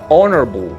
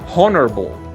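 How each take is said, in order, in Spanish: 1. Empieza directamente con la vocal. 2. Empieza con un sonido de h aspirada. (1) "sino honorable" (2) "No pronunciamos honorable con H, con ese sonido de J o ese sonido de soplido"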